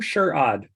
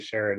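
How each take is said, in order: First: The first syllable sounds like 'sure'. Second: The first syllable sounds like 'sher'. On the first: This is how the name's owner says it. The speaker calls it right. "it's sure, I'm sure odd" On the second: This is how most people read the name. The speaker calls it wrong. "Everyone sees the name and they immediately say Sherrod"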